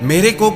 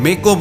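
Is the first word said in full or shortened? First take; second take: full; shortened. First: The first word is pronounced in full. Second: The first word is shortened and clipped. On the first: The speaker calls it right. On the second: The speaker calls it wrong.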